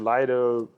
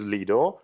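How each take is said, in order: First: The name is said in its later, changed pronunciation. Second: The name is said in its original Latin pronunciation. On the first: This is the form the word later took. "later on it transformed to Lido" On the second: This is the word's original form. "in Latin language it is Lido"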